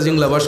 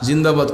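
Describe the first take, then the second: First: The word is slurred into something like jinglabas. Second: The word is pronounced clearly as zindabad. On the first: The speaker calls it wrong. "কেউ কেউ জিংলাবাসও কইছেন" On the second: The speaker calls it right. "জিন্দাবাদ কইছেন"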